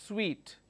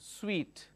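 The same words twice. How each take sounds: Both takes have the same delivery.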